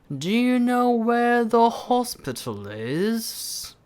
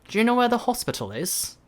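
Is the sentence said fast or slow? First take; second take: slow; fast. First: It is said at a slow pace. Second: It is said at a fast pace. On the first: "아니면 여러분들 천천히" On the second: "아니면 좀 더 빨리"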